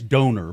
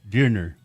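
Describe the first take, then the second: First: It is said like the English word donor. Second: It is said with a German vowel sound. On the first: The speaker calls it wrong. "it says donor" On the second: The speaker calls it right. "you're supposed to pronounce it like it's a German word"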